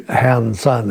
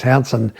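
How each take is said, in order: First: "Han Sun" as two separate, evenly weighted words; "Han Sun" pulled apart, Chinese-name style; split into two syllables. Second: Said in the usual way. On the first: Shown as a demonstration. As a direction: say "Han Sun" slowly apart, with a full vowel in "Sun".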